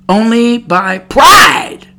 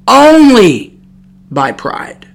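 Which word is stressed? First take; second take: by; only. First: The stress is on "by". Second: The stress is on "only".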